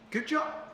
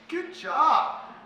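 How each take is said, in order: First: It sounds offhand and casual. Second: It sounds confident and relaxed. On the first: The talk was just okay. "it comes across just casual" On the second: The talk went really well. "Confident, relaxed"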